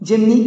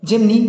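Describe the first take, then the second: Both takes have the same delivery.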